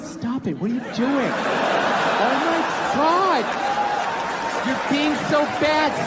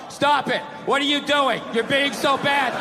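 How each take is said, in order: First: It is said in a playful, teasing way. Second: It is read out in a flat, stiff way.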